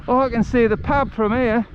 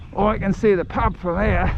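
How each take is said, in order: First: High, chirpy Aussie bloke, pleased with himself; delighted Aussie accent spotting the pub. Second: Put-on a lighter, slightly higher Aussie accent; self-declared Aussie accent, lightly done. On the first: Retold or imitated. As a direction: deliver it in a cheeky Aussie accent. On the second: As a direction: redo the line in a mild Aussie accent. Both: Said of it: "That's my Aussie accent".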